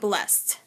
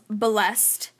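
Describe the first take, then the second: First: The ending is not a separate syllable, one syllable. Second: The ending is a separate syllable, two syllables. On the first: "D would be blessed and it would be pronounced blessed" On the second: "ED was blessed and pronounced blessed"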